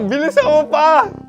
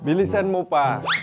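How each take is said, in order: First: It is said in a desperate, urgent voice. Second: It is said in a calm, plain voice.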